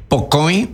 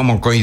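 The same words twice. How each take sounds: First: Po coin said short, "po" then "coin" run together; shortened number word. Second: Mo coin said as the form to avoid; wrong full form. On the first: Teacher spelling out the short form, Po coin said carefully. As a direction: clip it to Po coin, no full form. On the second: Teacher showing the wrong long form, mo coin said carefully. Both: Shown as a demonstration. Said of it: "no digo mo coin".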